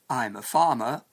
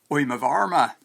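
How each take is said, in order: First: It has a Standard English accent, R silent. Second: It has a West Country accent, R pronounced.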